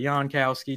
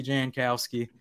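First: "Jan" said with a Y sound, like "Yahn"; Y pronunciation. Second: "Jan" said with a hard J, like the name Jan; English J start on "Jan", as in "jam"; J pronunciation. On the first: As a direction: say "Jan" as YAHN, open vowel. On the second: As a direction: say "Jan" as JAN, short A. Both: Shown as a demonstration. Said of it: "Go, go either way".

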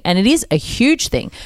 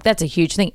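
First: "is" stressed to confirm it. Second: Said in the usual way. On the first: Real, not acted. Conceding to the interviewee that it matters, stress on "is". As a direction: lean on "is" in agreement.

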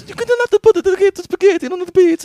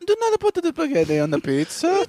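First: Put-on shrill laughing Italian accent, much higher and louder; over-the-top Italian accent while laughing. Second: High mock Italian accent; hammed-up Italian accent, much higher. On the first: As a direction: squeal it like a cartoon Italian. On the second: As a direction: play the outraged Italian TikTok guy. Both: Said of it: "Italian accent".

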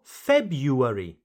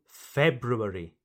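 First: February as FEB-yoo-air-ee; first R dropped. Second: February as FEB-roo-air-ee; both R's pronounced. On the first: Teacher returns to both options, February without the first R. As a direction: glide through YOO in February. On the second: Teacher returns to both options, February with both R's. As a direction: sound the R after the B in February. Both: Shown as a demonstration. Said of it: "So you can say".

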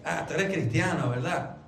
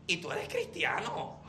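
First: «Ah, tú eres cristiano» afirmado en tono grave, con «¿verdad?» de confirmación; reconocimiento. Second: Pregunta baja y grave, con duda sobre CRISTIANO; pregunta con recelo. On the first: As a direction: di «cristiano» como quien acaba de reconocerlo. (constatación en tono grave) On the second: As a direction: pregunta «¿Y tú eres cristiano?» como dudándolo, en voz baja. (duda insinuada en «cristiano») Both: Shown as a demonstration. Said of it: "connotación completamente diferente".

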